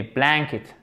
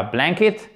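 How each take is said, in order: First: 'blanket' stressed on BLAN, second syllable dropping away; softer, stress the first syllable of 'blanket'. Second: 'blanket' said the wrong way, ending on a rise; wrong stress demo. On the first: Teacher correcting learners' English stress, 'blanket' with stress on BLAN. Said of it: "Accent tonique sur la première syllabe". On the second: Teacher showing French learners what to avoid, mispronounced 'blanket' with rising end. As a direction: lift the end of 'blanket' as a mistake. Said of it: "Accent tonique sur la première syllabe. C'est pas blanket".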